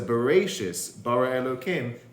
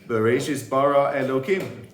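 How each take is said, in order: First: There is a pause after Bereshis. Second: It is said without a pause after Bereshis.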